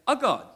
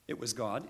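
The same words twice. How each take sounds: First: "a" hit high and loud before God; stress on A. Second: Said in the usual way. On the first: Retold or imitated. Jehovah's Witness correcting the householder, "a" stressed high and loud. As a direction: punch "a" to correct the wording. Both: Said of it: "It doesn't say".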